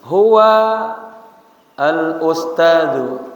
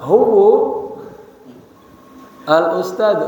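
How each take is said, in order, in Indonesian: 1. Kata pertama berakhir dengan vokal 'a'. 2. Kata pertama berakhir dengan vokal 'u'. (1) "seperti saya bilang" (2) "Yang dibaca huwu al-ustadu, enggak"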